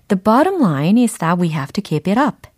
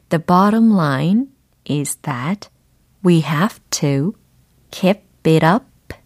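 First: The sentence is spoken at normal speed. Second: The sentence is spoken slowly.

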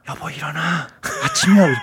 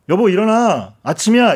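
First: It is said very softly and gently. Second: It is said at a normal, waking volume.

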